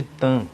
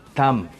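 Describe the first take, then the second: First: "Tan" ending in a nasal vowel, lips left open; nasalized M. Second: "Tam" closed on a clear M; pronounced final M. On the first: Teacher shows the Brazilian habit, "Tan" nasalized. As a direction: say "Tan" with the M melted into the nose. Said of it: "nasalizando a letra M". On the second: Teacher shows the word as written, "Tam" with sounded M. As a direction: say "Tam" shutting the lips on the final M. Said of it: "ela é escrita como". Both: Shown as a demonstration.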